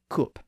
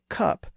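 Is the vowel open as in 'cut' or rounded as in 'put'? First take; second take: rounded; open. First: The vowel is short and rounded, as in 'put'. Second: The vowel is open and unrounded, as in 'cut'. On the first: "you might hear people in Northern England say coop" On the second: "someone in the south of England, or most of the rest of the English-speaking world, would say cup"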